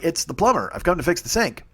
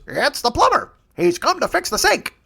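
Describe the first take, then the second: First: Said in the usual way. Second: Higher squawking parrot mimicking the plumber. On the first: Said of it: "And you're like". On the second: The jagoff parrot repeats the plumber's words in a high squawk. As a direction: parrot mocks the plumber's line, pitched up. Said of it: "the parrot goes".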